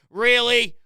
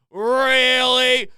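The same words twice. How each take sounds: First: Short incredulous "Really", falling at the end. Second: "Really" stretched long and loud; drawn-out incredulous REALLY. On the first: Host ranting about a terrible lineup, incredulous. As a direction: say "Really" once in sharp disbelief. Incredulous rant, first of two takes. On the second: Host ranting about a terrible lineup, exasperated drawn-out "Really". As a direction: drag out "Really" in loud disbelief. Incredulous rant, repeated more emphatically. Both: Real, not acted.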